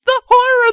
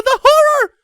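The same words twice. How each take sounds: First: Shrill wail on horror; terrified wail. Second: Shrill wail, horror falling away; terrified wail, falling. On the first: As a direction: wail the word horror in panic. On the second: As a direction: wail it again, dropping at the end. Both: Acted. Ponies shrieking in terror.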